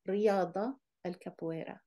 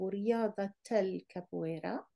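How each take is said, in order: First: The first word ends in -a, no t. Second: The first word ends in -ata, vowel included. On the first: The speaker calls it wrong. "لكن لا تستطيعين أن تقولي" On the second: The speaker calls it right. "pronouncing the فتحة here"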